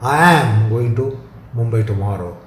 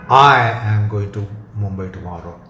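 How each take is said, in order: First: The word "am" carries the stress. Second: The word "I" carries the stress. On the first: The trip will happen no matter what. "shows the conviction and the definiteness" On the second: Only this person is going, nobody else. "emphasis on I excludes some proxy"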